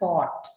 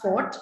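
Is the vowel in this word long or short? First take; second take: long; short. First: The vowel is said long. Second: The vowel is said short. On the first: The speaker calls it right. "pronounced with a long O" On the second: The speaker calls it wrong. "It's not fort"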